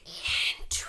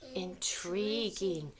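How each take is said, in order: First: It is said in a forceful whisper. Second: It is said in a plain, normal voice.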